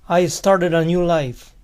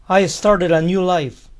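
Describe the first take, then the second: No difference in how they are said.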